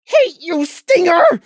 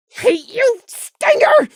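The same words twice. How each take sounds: First: Higher, louder angry shout, less shrill; high, bitter shout; shouting again. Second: Very high, louder hate-filled shout; very high, raw cry of hate; furious shout. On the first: A narrator's reading. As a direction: spit out the hate once more. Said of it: "he shouted again". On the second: Acted. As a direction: scream it at the enemy. Prey furious at the dead stinger.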